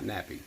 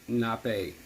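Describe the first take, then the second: First: The word ends with an 'ee' sound. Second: The word ends with an 'ay' sound. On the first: The speaker calls it wrong. "not nappy" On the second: The speaker calls it right. "which is nappe"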